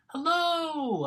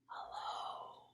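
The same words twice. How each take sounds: First: It is said very loudly. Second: It is said very quietly.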